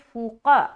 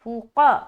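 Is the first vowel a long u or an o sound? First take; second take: long u; long u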